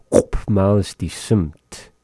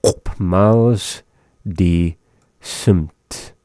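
First: Said in the usual way. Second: "Op miles, die, simt" in slow separate pieces; word by word. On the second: Shown as a demonstration. Teacher breaking down snow blowing phrase for learners, word by word. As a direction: pause after "miles" and after "die".

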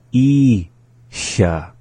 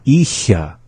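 First: ISHA split, long I, pause, hissed SHA; slowly. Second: ISHA as one short joined word; up to speed. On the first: Teacher repeating the word for learners, slowly. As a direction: break ISHA into two slow syllables. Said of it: "the second time slowly". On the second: Teacher saying the word for repeating, up to speed. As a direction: say ISHA without a break. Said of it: "up to speed". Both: Shown as a demonstration.

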